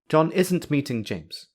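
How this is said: It sounds like a firm, certain statement. The speaker is sure it is not happening. "the speaker is certain that John is not meeting James"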